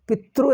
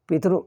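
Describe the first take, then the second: First: The r is said as a consonant. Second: The r is said as a vowel. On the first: The speaker calls it wrong. "ಎಂದು ಹೇಳಬಾರದು" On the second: The speaker calls it right. "ಅದು ರು ಎನ್ನುವುದು ಸ್ವರ"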